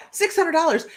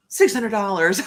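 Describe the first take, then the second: First: Higher, incredulous repeat with the stress on hundred; can't believe how cheap; disbelief. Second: Said in the usual way. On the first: Real, not acted. Repeating the cheap Reykjavik fare to viewers, amazed.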